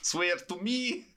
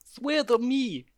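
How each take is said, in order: First: Slow, high, laughing Batman parody; hammed-up Batman. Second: Slow, high hammed-up Batman voice; gravelly Batman. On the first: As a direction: laugh through the Batman growl. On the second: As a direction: drag it out like a parody Batman. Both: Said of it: "with a Russian accent".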